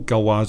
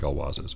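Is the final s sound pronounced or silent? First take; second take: silent; pronounced. First: The final s sound is silent. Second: The final s sound is pronounced. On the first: "in French you don't pronounce the S at the end of a plural" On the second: "this is French cigarettes in English, so I'm going to say Gauloises"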